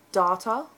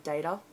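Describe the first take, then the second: First: Data said with the a of father; data, the way she actually says it; dah-ta. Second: Data said with the a of day; data, the way she wishes she said it. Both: Shown as a demonstration. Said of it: "I wish I said data".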